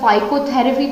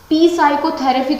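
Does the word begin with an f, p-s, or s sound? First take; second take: f; p-s. First: The word begins with an f sound. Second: The word begins with a p before the s. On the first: "या फाइकोथेरेपी तो नहीं बोला" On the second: "पी साइकोथेरेपी तो नहीं बोला"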